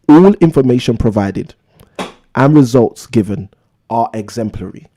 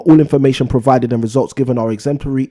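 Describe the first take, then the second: First: It is read slowly. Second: It is read at a quicker pace.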